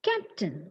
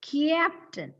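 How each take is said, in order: First: No extra y sound follows the first consonant. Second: An extra y sound follows the first consonant. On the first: The speaker calls it right. "look at the correct pronunciation" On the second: The speaker calls it wrong. "what is the wrong pronunciation which is commonly made by Malayalis? It is captain"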